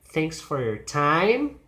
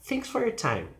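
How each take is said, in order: First: Slow, with "time" sweeping upward; questioning lift on "time"; unsure rise. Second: High "Thanks", pitch sliding down to "time"; finished, certain drop on "time"; falling intonation. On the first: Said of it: "it's unclear". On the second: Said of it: "emphasis is thanks and then goes down". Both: Shown as a demonstration.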